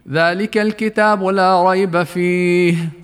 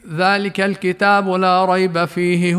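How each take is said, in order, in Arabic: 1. تتوقف القراءة بعد كلمة 'fihi'. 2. تستمر القراءة دون توقف بعد 'fihi'. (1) "الوقف على كلمة فيه" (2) "تقرأ كلها بنفس واحد"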